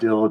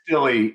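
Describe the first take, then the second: First: The name is said with one syllable. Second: The name is said with two syllables. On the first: The speaker calls it wrong. "most people pronounce it Dill" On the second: The speaker calls it right. "No, it's Dilly"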